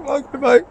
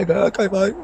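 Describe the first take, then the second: First: Squeaky high sing-song okay, mate rising at the end; mock placating. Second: High, breezy brush-off okay; mock placating. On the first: Waving off a heckler at the pub, squeaky mock placating. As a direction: push the pitch way up and toss the words off like a joke. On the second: Brushing off a heckler in the pub, mock placating. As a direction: shrug off a pub heckler with a higher, airy okay. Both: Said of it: "I'm just gonna say".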